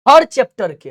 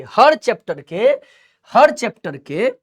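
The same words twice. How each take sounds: First: हर punched louder, हर chapter के; stress on हर. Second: हर chapter के slow, हर lifted and drawn out; slow stress on हर. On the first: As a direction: hit हर hard, each chapter counts. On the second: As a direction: spell out हर chapter के slowly. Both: Shown as a demonstration. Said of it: "जितने chapter है हर chapter के".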